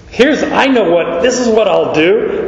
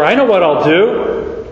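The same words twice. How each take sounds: First: Higher and firmer on "Here's" and "this is what I'll do"; emphatic. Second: Said in the usual way. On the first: Shown as a demonstration. Preacher showing the steward deciding emphatically on his plan. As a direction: stress "this" as a sudden plan. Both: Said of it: "It's emphatic".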